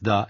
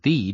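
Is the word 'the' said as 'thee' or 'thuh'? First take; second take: thuh; thee. First: The vowel is a short, reduced uh sound. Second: The vowel is a long, full ee sound.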